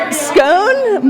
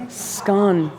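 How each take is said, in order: First: "scone" said as skohn, long o like cone; "scone" with the vowel of "bone"; scone rhymes with bone. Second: "Scone" said as skon, short o like gone; "Scone" with the vowel of "gone"; scone rhymes with gone. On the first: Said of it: "I'm not Scottish". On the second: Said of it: "sorry, sorry". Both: Shown as a demonstration.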